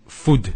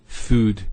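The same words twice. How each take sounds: First: Food with a short U. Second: Food with a slowly held U; long U. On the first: Teacher showing the wrong food. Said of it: "we don't say food". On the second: Teacher giving the right food. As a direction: hold the U in food. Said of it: "we say food". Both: Shown as a demonstration.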